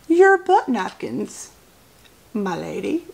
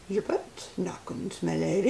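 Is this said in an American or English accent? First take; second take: American; English. First: It is said in her ordinary American accent. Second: It is said in an attempted English accent.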